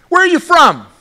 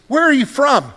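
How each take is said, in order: First: Higher, louder demand from Pilate; Pilate's demand. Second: Said in the usual way. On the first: Acted. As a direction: press the question hard. Pilate's question, acted again.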